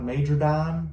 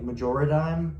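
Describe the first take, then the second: First: No syllable comes between major and dime. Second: An extra syllable comes between major and dime. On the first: The speaker calls it wrong. "not major dime" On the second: The speaker calls it right. "I wanted it to sound like majority dime, like majoradime"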